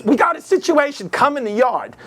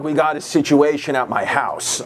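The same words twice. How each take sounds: First: High-pitched mob wife giving orders; Goodfellas mob wife. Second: Lightly voiced low-pitched greaseball boss; a hint of a shady boss, kept low. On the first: Retold or imitated. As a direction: summon him in a high wife voice. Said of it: "she looked like from Goodfellas".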